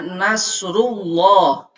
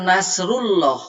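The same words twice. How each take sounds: First: The L in Allah sounds heavy and thick. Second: The L in Allah sounds light and thin. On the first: The speaker calls it right. "Jadi dibacanya Nasrullah ... harus ditafhimkan" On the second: The speaker calls it wrong. "Jangan Nasrullah"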